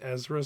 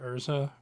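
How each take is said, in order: First: It is pronounced as Ezra, z before r. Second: It is pronounced as Urza, r before z. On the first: The speaker calls it wrong. "I thought her name was Ezra Scarlet" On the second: The speaker calls it right. "when it is in fact Urza"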